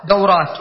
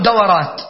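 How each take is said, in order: First: دورات as daw-rāt, w without a vowel; correct diphthong. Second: دورات as da-wa-rāt, a after w; common mistaken vowel. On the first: Shown as a demonstration. Teacher gives the standard plural, دورات as daw-rāt. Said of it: "يقولون دورات". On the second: Retold or imitated. Teacher quotes what many say, دورات as da-wa-rāt. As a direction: open the middle of دورات: da-wa-rāt. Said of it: "وتسمع الكثير".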